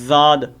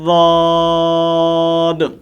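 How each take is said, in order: First: It begins with a plain z-like sound. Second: It begins with a heavy, emphatic d sound. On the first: The speaker calls it wrong. "जा भी नहीं पढ़नी" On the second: The speaker calls it right. "ज़बान की करवट ... जब मसूड़ू के साथ जाकर लगती है तो लफ्ज़ वाद अदा होता है"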